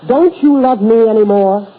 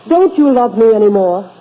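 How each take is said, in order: Both takes have the same delivery.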